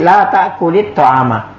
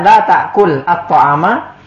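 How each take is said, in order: First: An 'i' vowel links ta'kul to the next word. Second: The final l of ta'kul is said without a vowel. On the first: The two vowelless sounds are eased for easier speech. "kita roba sukunnya jadi diganti jadi kasrah untuk meringankan" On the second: The original form is kept without easing. "Tapi kalau kita ucapkan la ta'kul at-to'ama, ya juga tidak apa-apa"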